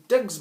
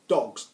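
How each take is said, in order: First: "Dugs" said the accent's way, with a short fronted vowel; word in imitated accent. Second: Said in the usual way. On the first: Shown as a demonstration. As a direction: pronounce "Dugs" as a mock Irish take on dogs. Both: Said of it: "Dugs means dogs".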